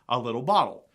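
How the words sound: An American accent with a D-like T.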